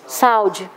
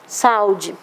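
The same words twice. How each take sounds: The two takes are said the same way.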